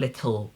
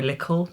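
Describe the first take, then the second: First: The middle consonant sounds like a t. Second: The middle consonant sounds like a k. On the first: "I don't do ta" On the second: "I kind of make a ka little"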